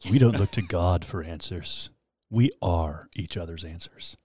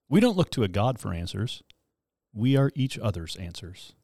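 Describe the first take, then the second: First: It is read in a deep radio-announcer voice. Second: It is read in a normal speaking voice.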